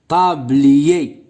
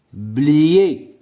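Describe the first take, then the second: First: Said in the usual way. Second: "Tablier" said as ta, long pause, blier; split into syllables. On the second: Shown as a demonstration. Teacher counting syllables for pupils, word split in two. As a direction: break "Tablier" in two with a clear gap. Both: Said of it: "le nombre de syllabes".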